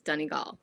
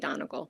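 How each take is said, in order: First: It is pronounced the local Irish way. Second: It is pronounced the American way. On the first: The speaker calls it right. "if you want to say it correctly, it's Donegal" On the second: The speaker calls it wrong. "Americans say Donegal"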